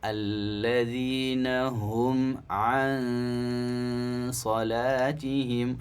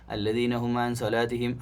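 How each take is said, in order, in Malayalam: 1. 'an' എന്നതിലെ നാസികാശബ്ദം നീട്ടിപ്പിടിക്കുന്നു. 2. 'an' എന്നതിലെ നാസികാശബ്ദം ചുരുക്കിയാണ് പറയുന്നത്. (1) "അൻ അത്രയും സമയം അവിടെ കൊടുക്കുക" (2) "അങ്ങനെയല്ല"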